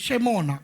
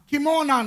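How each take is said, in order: First: The word begins with an SH sound. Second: The word begins with a K sound. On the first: The speaker calls it right. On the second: The speaker calls it wrong. "கிமோனா නෙවෙයි"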